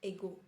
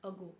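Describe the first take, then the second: First: It begins with an 'eh' sound. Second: It begins with a short 'uh' sound. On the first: The speaker calls it wrong. "Not not एगो" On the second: The speaker calls it right. "It's अगो"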